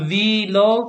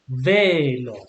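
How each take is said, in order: First: The first vowel is not like 'e' in bed. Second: The first vowel sounds like 'e' in bed. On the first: The speaker calls it wrong. "Not velo" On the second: The speaker calls it right. "but velo"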